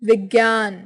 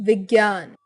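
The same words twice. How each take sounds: No difference in how they are said.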